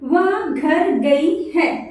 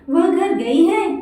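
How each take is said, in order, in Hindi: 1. यह साधारण कथन के रूप में बोला गया है। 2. यह हाँ-ना वाले प्रश्न के रूप में बोला गया है। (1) "तो ये एक सेंटेंस है" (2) "यहाँ पे क्वेश्चन मार्क दिया, तो बोलने का तरीका चेंज हो जाएगा।"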